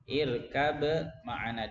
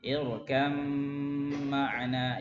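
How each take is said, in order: First: The b sound is pronounced before the m. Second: The b sound is merged into the m.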